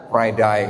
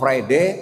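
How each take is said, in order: First: It is said with an Australian accent. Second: It is said with a British accent. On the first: "di Australia ngomongnya" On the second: "Orang Inggris ngomongnya"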